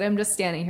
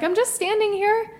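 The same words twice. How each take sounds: First: Said in the usual way. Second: Pitched well up, baffled protest; mock innocent retort; high defensive protest. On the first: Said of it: "I said". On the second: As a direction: squeak it out in disbelief. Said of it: "That's what I said".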